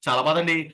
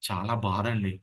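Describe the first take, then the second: First: It is spoken quickly and rushed. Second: It is spoken slowly and gently. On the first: This pace does not suit a grieving family. The speaker calls it wrong. "ఇలా పరిగెడతామా?" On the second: This suits consoling a grieving family. The speaker calls it right. "అలా మాట్లాడతాం"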